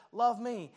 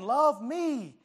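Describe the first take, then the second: First: Softer, level and calm; God's quiet command. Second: Louder, higher, pleading call to be loved; world calling out. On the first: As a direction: speak it as a gentle, steady command. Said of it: "but God says". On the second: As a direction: let the world shout its demand for love. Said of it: "This world is out here just saying". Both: Acted.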